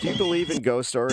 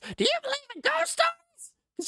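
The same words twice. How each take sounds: First: It is said in an ordinary speaking voice. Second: It is said in a put-on rock star voice.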